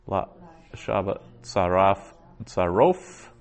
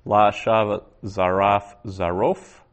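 First: "La" "Shava Zaraf" "Zarof" split into separate pieces with pauses; word by word. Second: "La Shava Zaraf Zarof" read slowly as one flowing phrase; careful teacher reading "La Shava Zaraf Zarof" whole; slow Hebrew reading. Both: Shown as a demonstration. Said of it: "So Jeremiah six twenty-nine".

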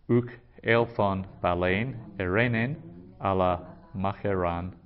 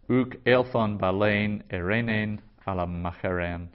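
First: "Uk elthon balein erenen" then "ala macheran"; verse repeated in parts. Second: "Uk elthon balein erenen ala macheren" read steadily, stress on "uk"; Greek verse read. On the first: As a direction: repeat the verse in two halves. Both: Shown as a demonstration. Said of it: "In Matthew ten thirty-four".

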